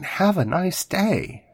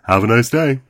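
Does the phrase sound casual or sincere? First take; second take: sincere; casual. First: It is said warmly and deliberately, with real feeling. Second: It is said in a quick, offhand, routine way. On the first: The speaker truly wishes the listener well. The speaker calls it right. "Or when they really mean it. I mean" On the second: It is just a polite habit. The speaker calls it wrong. "when somebody just says as a colloquialism"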